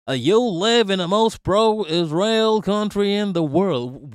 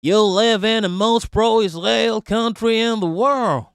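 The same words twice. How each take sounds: First: Put-on slow, drawn-out Yankee accent, a bit higher. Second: A quick mocking Yankee accent. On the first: Repeating the commenter's line in a slow Yankee accent. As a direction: stretch it out in a Yankee drawl. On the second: Mocking a commenter in a Yankee accent. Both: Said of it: "let me try to do a Yankee accent".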